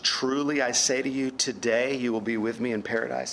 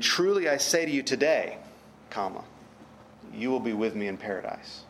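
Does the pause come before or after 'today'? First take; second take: before; after. First: The pause comes before the word today. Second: The pause comes after the word today.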